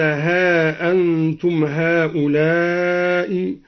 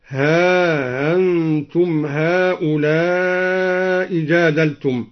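First: Said in the usual way. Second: Slow recitation, ها gliding into a softened hamza in أنتم; no glottal stop between ها and أنتم, long vowels drawn out; eased hamza. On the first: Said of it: "قرأ الدوري بتسهيل الهمزة بعدها". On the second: Shown as a demonstration. Teacher showing al-Duri's tashil, ها أنتم run smoothly together. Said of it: "بتسهيل الهمزة بعدها، وله على ذلك المد والقصر".

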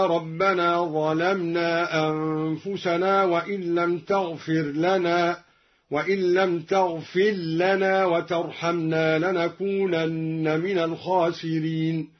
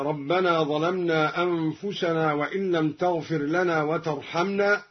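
First: تغفر لنا read taghfil-lana, the ر merged into the ل, chanted slowly; ra merged into lam. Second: Said in the usual way. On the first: Shown as a demonstration. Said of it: "بإظهار الراء وإدغامها هكذا". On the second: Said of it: "قرأ الدوري بإظهار الراء وإدغامها".

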